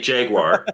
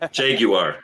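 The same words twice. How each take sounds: First: The 'u' sound is not clearly pronounced. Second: The 'u' sound is clearly pronounced. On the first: This is the speaker's own usual pronunciation. "I say Jaguar" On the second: This is how British people say it. "for British people, it's the Jaguar. You have to really pronounce the U"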